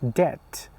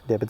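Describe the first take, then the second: First: The B is silent. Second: The B is pronounced with an extra vowel. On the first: The speaker calls it right. "you don't pronounce the B" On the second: The speaker calls it wrong. "debit is wrong"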